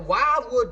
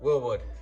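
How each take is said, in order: First: The first part is said with a D: 'Wild'. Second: The first part is said without a D: 'Will'. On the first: The speaker calls it wrong. "dumbasses call them" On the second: The speaker calls it right. "normal people call this Willwood"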